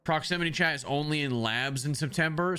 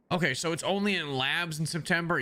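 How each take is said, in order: First: Said in the usual way. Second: Disbelieving, rising on only; surprised question. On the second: Real, not acted. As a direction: ask it back in surprise.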